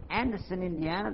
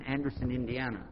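First: Higher, rising on Indiana; surprised question. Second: Said in the usual way. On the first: Retold or imitated. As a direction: check the town name in mild disbelief. Questions the town he was told.

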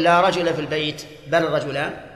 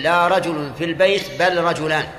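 First: "رجل" said rajula, with the fatha ending, as the wrong example; wrong accusative reading. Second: "رجل" said rajulun, with the raf' ending; correct nominative reading. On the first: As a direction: show the error, "رجل" as rajula. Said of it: "هذا غلط". ("رجل" بالفتح، القراءة الخاطئة) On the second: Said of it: "ولهذا يجوز أن تقول". ("رجل" بالرفع، القراءة الجائزة) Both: Shown as a demonstration.

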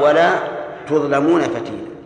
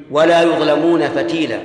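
First: "تظلمون" begins with ta, tuẓlamūna; reading with ta. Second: "يظلمون" begins with ya, yuẓlamūna; reading with ya. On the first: Teacher recites the other reading, with ta, to students. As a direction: open "تظلمون" clearly with ta. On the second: Teacher recites the ya reading of the verse. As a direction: stress the ya sound in "يظلمون". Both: Shown as a demonstration. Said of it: "وفي قراءة".

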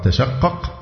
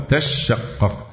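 First: تشقق with a short single shin; light shin. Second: تشقق with a long, doubled shin. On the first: Teacher offering the first option for reading, تشقق with a light shin. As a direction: keep the sh in تشقق light, "tashaqqaq". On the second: Teacher offering the second option for reading, تشقق with a doubled shin. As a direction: hold the sh in تشقق, "tash-shaqqaq". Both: Shown as a demonstration. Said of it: "بتخفيف الشين وتشديدها".

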